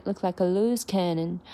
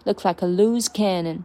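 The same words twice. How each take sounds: First: "look like" relaxed and light, weight landing on "loose"; light lead, stress loose. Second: Said in the usual way. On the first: Shown as a demonstration. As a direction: float "look like" and hit "loose", "cannon" a little firm. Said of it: "look like放松一点". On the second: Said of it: "把前面风轻云淡一点".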